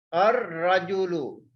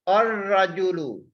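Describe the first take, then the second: The two takes are said the same way.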